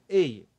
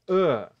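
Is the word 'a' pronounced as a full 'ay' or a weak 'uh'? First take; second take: ay; uh. First: It is said as a full 'ay' sound. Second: It is said as a short weak 'uh'. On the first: The word stands alone. "quando eu estou falando apenas a palavra sozinho na frase" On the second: The word sits in the middle of a sentence. "o som muda e o som vira a"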